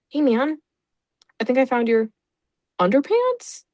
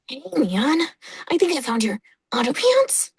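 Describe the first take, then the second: First: It is said in the speaker's normal voice. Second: It is said in a put-on character voice. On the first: "I didn't do his voice" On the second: "Can't do it"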